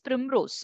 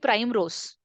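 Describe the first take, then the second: First: The first syllable sounds like 'prim'. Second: The first syllable sounds like 'prime'. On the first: The speaker calls it right. "My name is Primrose" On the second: The speaker calls it wrong. "if they mispronounce your name"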